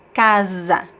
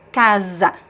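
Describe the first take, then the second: First: The middle consonant is a buzzing z sound. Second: The middle consonant is a buzzing z sound.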